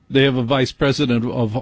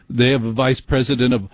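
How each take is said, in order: Both takes have the same delivery.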